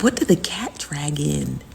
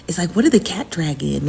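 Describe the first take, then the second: First: Breathy unvoiced whisper of "what did the cat drag in?". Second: Said in the usual way. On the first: Streamer whispering a gossip aside to chat, hushed.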